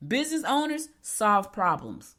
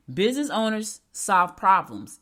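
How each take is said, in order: First: Said in the usual way. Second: Louder, slow, punching "Business"; emphatic repeat. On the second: Shown as a demonstration. Coach repeats her key point to owners, louder and slow. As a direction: hammer "Business owners solve problems" word by word. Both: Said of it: "Let me say it again".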